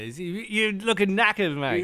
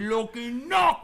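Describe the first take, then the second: First: Put-on light Cockney accent. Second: Put-on high, loud Cockney accent; hammy Cockney accent. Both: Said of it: "back to our Cockney thing".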